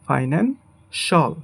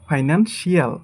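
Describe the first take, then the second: First: The ending is said as one syllable, shal. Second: The ending is said as two syllables, shee-al. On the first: The speaker calls it right. "But এটা হবে" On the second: The speaker calls it wrong. "এটাকে আমরা বলি"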